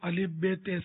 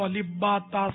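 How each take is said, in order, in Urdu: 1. حروف کے نام 'e' کی آواز پر ختم ہوتے ہیں۔ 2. حروف کے نام 'a' کی آواز پر ختم ہوتے ہیں۔ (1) "اردو" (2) "قرا کے یہاں تو الف با تا سا بولتے ہیں"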